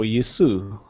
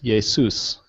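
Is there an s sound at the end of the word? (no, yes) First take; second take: no; yes. First: The word ends without a final s sound. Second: The word ends with a final s sound. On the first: "in modern pronunciation" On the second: "but Jesus in Erasmian"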